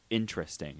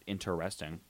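First: The word is said with three syllables. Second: The word is said with four syllables. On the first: The speaker calls it right. "You want me to cut out the E?" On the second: The speaker calls it wrong. "not interesting"

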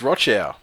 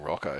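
First: The second syllable sounds like 'chow'. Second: The second syllable sounds like 'co'. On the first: The speaker calls it right. "It's Rochow, motherfucker" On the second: The speaker calls it wrong. "these commentators calling him Rocco"

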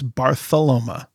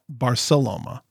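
First: The middle consonant is a th sound. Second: The middle consonant is an s sound. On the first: "Is it with a TH" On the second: "or with a C?"

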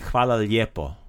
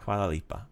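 First: The second word is said in full, lijepo. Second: The second word is shortened to lipa. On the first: This is the proper standard form. "But it's proper, you would say hvala lijepo" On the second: This is a regional dialect form. "That's Dalmatian dialect right there. So it's a little lazier way of saying lijepo"

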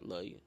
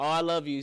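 First: It is said quickly and flatly, without enthusiasm. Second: It is said warmly with lively enthusiasm. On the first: This is the awkward, guarded way his family says it. "Be like" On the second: This is the affectionate way other families say it. "it don't be that enthusiasm"

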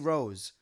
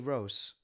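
First: The word ends with a buzzing Z sound. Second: The word ends with a soft hissing S sound. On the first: This is how the contestants never say it. "They never say rose" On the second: This is how the contestants always say it. "They do a soft S as opposed to a ZS"

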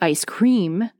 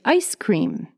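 First: The stress falls on cream. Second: The stress falls on ice. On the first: A foreign learner says it this way. The speaker calls it wrong. "we don't say ice cream" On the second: People in the United States say it this way. The speaker calls it right. "we say ice cream"

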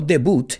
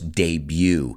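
First: It is pronounced the Spanish way. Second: It is pronounced the English way. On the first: The speaker calls it wrong. "No debut" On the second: The speaker calls it right. "In English, decimos debut"

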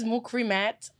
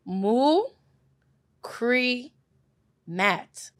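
First: The name is said at normal speed. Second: The name is said slowly.

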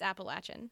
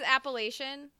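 First: The middle syllable sounds like 'latch'. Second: The middle syllable sounds like 'lay'. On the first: The speaker calls it right. "It's Appalachian" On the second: The speaker calls it wrong. "Everyone says Appalachian"

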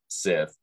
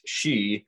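First: The word ends with a 'th' sound. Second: The word ends with a vowel sound. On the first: The speaker calls it wrong. "it is not pronounced Sith" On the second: The speaker calls it right. "it is pronounced she"

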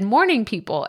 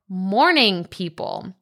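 First: The words are pronounced in a slurred, unclear way. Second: The words are pronounced clearly and carefully. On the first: The speaker calls it wrong. "because I said" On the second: The speaker calls it right. "I'm enunciating it way better here"

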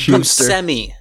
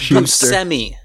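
First: The middle consonant is pronounced s. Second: The middle consonant is pronounced s.

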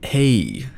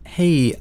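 First: It is said in a middle-aged man's voice. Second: It is said in her usual voice.

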